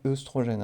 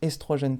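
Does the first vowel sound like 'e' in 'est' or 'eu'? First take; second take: eu; e. First: The first vowel is a rounded 'eu' sound. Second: The first vowel is an open 'e' sound. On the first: The speaker calls it wrong. "pas œstrogène" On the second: The speaker calls it right. "on prononce estrogène"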